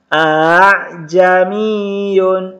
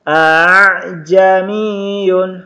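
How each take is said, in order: Both takes have the same delivery.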